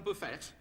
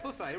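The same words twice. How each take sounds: First: The final T is pronounced. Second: The final T is silent.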